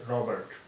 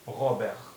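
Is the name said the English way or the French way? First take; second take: English; French. First: The name is said with an English pronunciation. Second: The name is said with a French pronunciation. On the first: "If you are pronouncing it in English" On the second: "And if we pronounce it in French"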